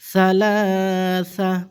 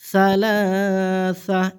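No difference in how they are said.

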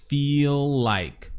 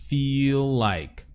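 No difference in how they are said.

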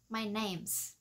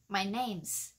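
First: Is shrinks to a voiceless s on name. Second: The same.

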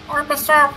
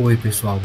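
First: The voice is very high and thin. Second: The voice is low and deep. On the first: "Com a voz bem fininha" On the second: "Engrossar a voz"

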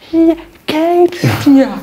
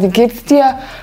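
First: It is spoken with slow, exaggerated mouth movements. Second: It is spoken normally, in a natural way.

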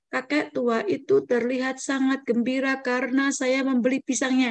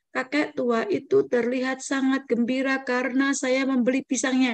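First: The sentence is read with a flat, unvaried pitch. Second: The sentence is read with a flat, unvaried pitch.

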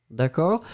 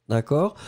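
Both takes have the same delivery.

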